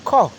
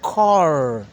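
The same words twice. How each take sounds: First: It is said in a British accent, r dropped. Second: It is said in an American accent, r pronounced.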